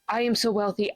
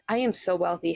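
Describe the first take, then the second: First: It is said in a tense, panicked tone. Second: It is said in a relaxed, nonchalant tone. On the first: The speaker is anxiously trying to convince themselves. The speaker calls it wrong. "The other one's panic affirming" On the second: The speaker takes the wealth as obvious. The speaker calls it right. "affirming to neutrality would look something like this"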